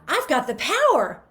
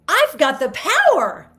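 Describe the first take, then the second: First: It sounds happy, with the pitch kept up. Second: The same.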